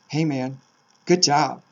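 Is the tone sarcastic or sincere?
sarcastic. It is said sarcastically, meaning the opposite.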